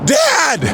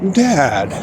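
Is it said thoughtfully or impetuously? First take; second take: impetuously; thoughtfully. First: It is said impetuously and eagerly. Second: It is said thoughtfully and calmly.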